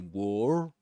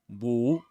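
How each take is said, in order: First: The R sound is clearly pronounced. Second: The R sound is left silent. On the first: "He doesn't say wore, wore, as in American English or other accents" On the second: "He says wore"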